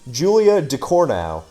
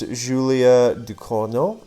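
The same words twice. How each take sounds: First: It is said with a plain American accent. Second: It is said with an attempted French accent. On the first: "this is what it sounds like when I say it in my natural American accent" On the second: "I know I'm saying that horribly, but I wanted to try"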